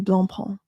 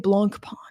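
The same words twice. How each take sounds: First: The C sound in the middle is silent. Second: The C sound in the middle is pronounced. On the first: The speaker calls it right. "You say Blancpain" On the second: The speaker calls it wrong. "you don't say Blancpain"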